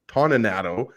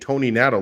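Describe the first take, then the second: First: The first part does not sound like Tony. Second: The first part sounds like the word Tony. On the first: "always always called him" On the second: "like the Tony Awards"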